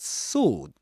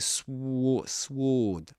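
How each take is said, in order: First: No w sound is heard after the s. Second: A w sound is heard after the s. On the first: The speaker calls it right. "without pronouncing the W" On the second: The speaker calls it wrong. "You don't say sw sword"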